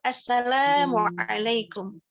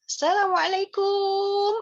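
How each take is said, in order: First: The syllable la is drawn out long. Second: The final syllable kum is drawn out long. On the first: The speaker calls it right. "yang kita panjangkan adalah lanya" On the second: The speaker calls it wrong. "salam kumnya kepanjangan ... Ini salah sayang"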